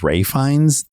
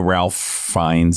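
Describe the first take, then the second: First: The first name is said without an L sound. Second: The first name is said with an L sound. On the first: "you pronounce that Ray Fiennes" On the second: "his name is R A L P H"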